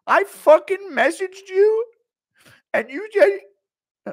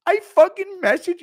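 First: High, loud, slow drawn-out shriek; slow mock scream. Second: High, loud quick shriek; mock scream. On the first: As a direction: stretch every word as you wail at the coffin. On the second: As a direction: yell it at a coffin. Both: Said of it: "he just screaming at a coffin".

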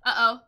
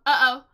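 The two takes are said the same way.

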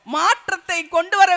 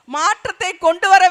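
Both takes have the same delivery.

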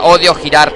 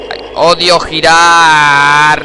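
First: Said in the usual way. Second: Slow, louder whine on "odio girar"; whiny complaint. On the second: Real, not acted. The player repeats it, drawn out.

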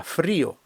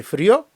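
First: Фріо with stressed і, falling separate о; split diphthong. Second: Фріо with loud rising stress on о; unsplit diphthong. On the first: Teacher corrects the reading, vowels split. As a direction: stress the і in фріо, two syllables. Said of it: "дифтонг треба розбити". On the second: Teacher shows the wrong reading, diphthong merged. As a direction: slide through і to a stressed о in фріо. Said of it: "Не фріо". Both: Shown as a demonstration.

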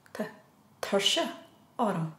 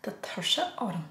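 First: Said in the usual way. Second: Softer, whispered "Tá tuirse orm" with no voice; tired whisper. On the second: Shown as a demonstration. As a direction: breathe "Tá tuirse orm" out as if worn out. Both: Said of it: "just remember the emotions be on you".

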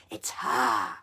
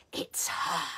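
First: Low, loud growl on "It's her"; growled like dogs. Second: Whispered hiss, It's her breathed out. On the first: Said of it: "the witches growled like dogs". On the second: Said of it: "hissed the witches". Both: Acted.

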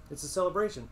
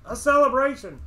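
First: Raised, eager pitch; keen declaration. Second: Very high, loud outburst; exultant cry. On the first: Innkeeper telling guests about the beacon festival, keen declaration. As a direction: declare it proudly, a little high. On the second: Innkeeper carried away describing the village festival, exultant cry. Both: Acted.

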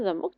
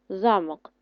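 First: ЗаМОК with the last syllable stressed; za-MOK, weight at the end; stress on second syllable. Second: ЗАмок with the first syllable stressed; ZA-mok, weight up front. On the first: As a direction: lean on МОК in замок. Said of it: "наголос на другий склад". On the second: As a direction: lean on ЗА in Замок. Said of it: "наголос на перший". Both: Shown as a demonstration.

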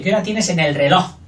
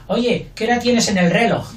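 First: "reloj" stressed on LOJ at the end of the question; stress on last syllable. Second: "reloj" stressed on RE at the end of the question; wrong stress. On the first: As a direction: ask it, landing on LOJ in "reloj". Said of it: "Fuerte, lo". ("reloj" con LOJ fuerte en la pregunta) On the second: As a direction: ask it, but hit RE in "reloj". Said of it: "La gente no dice". ("reloj" con RE fuerte en la pregunta) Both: Shown as a demonstration.

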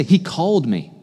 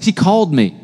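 First: Said in the usual way. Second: Louder, punchier, with more flair; with more pizzazz. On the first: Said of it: "Can, can you just say". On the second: Shown as a demonstration. Preacher urging the congregation to repeat it, with pizzazz. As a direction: give it real pizzazz this time. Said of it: "With a little more pizzazz".

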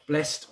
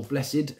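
First: "Blessed" said as one syllable, blest; "Blessed" with a silent second e, ending in -st; one-syllable pronunciation. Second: "blessed" said as two syllables, bless-id; "blessed" in the old church way, bless-ed; two-syllable pronunciation. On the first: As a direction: say "Blessed" to rhyme with "rest". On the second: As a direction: sound the second e in "blessed". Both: Shown as a demonstration. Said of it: "as some people might pr-, uh, pronounce it".

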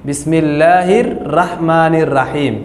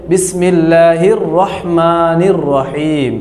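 First: Slow recitation with open aa in রাহমানির রাহিম; wrong pronunciation. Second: Very slow recitation, rounded ro in রহমানির রহিম; correct pronunciation. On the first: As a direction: say রাহমানির and রাহিম with a thin ra, as the mistake. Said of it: "সঠিক উচ্চারণ হইল না". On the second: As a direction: stretch it out, saying রহমানির and রহিম without aa after র. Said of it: "উচ্চারণ করতে হবে". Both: Shown as a demonstration.

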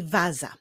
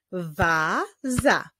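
First: Said in the usual way. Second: "waza" as a long wa, then za; syllable by syllable. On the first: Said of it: "czyli waza". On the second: Shown as a demonstration. Teacher solving a word riddle, "waza" built up by syllable. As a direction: piece "waza" together in two separate beats. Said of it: "pierwszą sylabą jest sylaba wa".

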